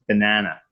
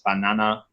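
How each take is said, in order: First: It is said with a North American accent. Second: It is said with a Spanish accent. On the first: "But then in North American it's banana" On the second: "Spanish it's banana"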